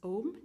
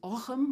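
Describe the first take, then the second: First: It has no throaty consonant in the middle. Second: It has a throaty consonant in the middle. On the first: This is the modern form of the name. "the modern pronunciation is" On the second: This is the early medieval form of the name. "the early medieval one is Ochem with a R sound"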